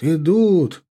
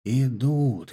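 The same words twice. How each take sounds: First: Rising excited call. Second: Said in the usual way. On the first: A narrator's reading. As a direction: call out the news eagerly. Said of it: "пронеслось по шеренгам егерей". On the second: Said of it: "пронеслось по шеренгам".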